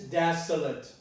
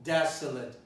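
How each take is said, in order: The two takes are said the same way.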